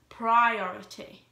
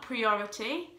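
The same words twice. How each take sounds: First: The first syllable sounds like 'pry'. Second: The first syllable sounds like 'pree'. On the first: The speaker calls it right. "The I, P-R-I, is pronounced as a Y, pri" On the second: The speaker calls it wrong. "Not priority"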